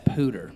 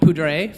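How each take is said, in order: First: The name is said the local Colorado way. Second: The name is said the French way.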